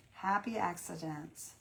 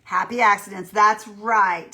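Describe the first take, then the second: First: Slow savoring. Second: Cheerful exclaim. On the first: Repeats the phrase slowly. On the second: Chat viewer's comment read out. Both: Real, not acted.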